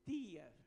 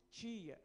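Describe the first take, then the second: First: "tia" with a hard T, as in tea; "tia" with a plain dental T; regional pronunciation. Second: "tia" with the T turned into ch, as in cheese; local pronunciation. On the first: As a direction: say "tia" as TEE-ah, no ch sound. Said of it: "no sul do Brasil, se pronuncia". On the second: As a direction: say "tia" as CHEE-ah. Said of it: "Nós falamos". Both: Shown as a demonstration.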